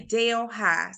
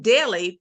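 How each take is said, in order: First: The name sounds like 'Dale High'. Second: The name sounds like 'Delly'. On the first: This is how the local small-town people say it. "But we say Dale High" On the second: This is how the city in India is named. "it's not pronounced as uh, the, uh, what is it from India? It's New Delhi"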